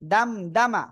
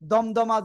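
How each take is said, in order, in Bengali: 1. প্রথম স্বরধ্বনিটি খোলা 'a' এর মতো শোনায়। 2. প্রথম স্বরধ্বনিটি গোলাকার 'o' এর মতো শোনায়। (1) "এটা কিন্তু দ না। দাল জবর দা হয়" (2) "দমদমা জ- জন্য কেউ বলবেন না"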